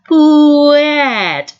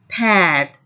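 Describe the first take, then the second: First: The word is sounded out slowly, sound by sound. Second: The word is said at an ordinary pace.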